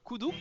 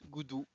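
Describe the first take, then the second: First: The name begins with a hard K sound. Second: The name begins with a voiced G sound. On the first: The speaker calls it right. "qui s'appelle euh" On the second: The speaker calls it wrong. "qu'on peut aussi très mal prononcer"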